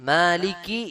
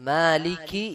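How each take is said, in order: No difference in how they are said.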